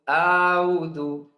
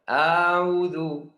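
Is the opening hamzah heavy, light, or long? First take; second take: long; long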